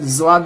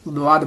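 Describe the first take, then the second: First: It begins with a plain z sound. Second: It begins with a heavy d sound. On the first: The speaker calls it wrong. "जवाद नहीं बोलनी है" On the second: The speaker calls it right. "द्वाद बोलनी है"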